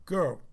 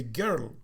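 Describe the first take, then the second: First: Put-on "girl" with an American r-coloured vowel; "girl", American pronunciation. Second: Put-on "girl" with a rounded British vowel; "girl", old Cyprus-British pronunciation. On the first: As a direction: say "girl" the New York way. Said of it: "in America they don't say that, they say". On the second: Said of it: "It's a British, British way". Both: Shown as a demonstration.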